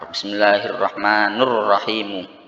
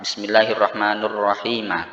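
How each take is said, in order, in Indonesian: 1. Kedua nama berakhir dengan vokal u. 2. Namanya berakhir dengan u, lalu a. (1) "Dhammah dhammah" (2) "dhammah kemudian fathah"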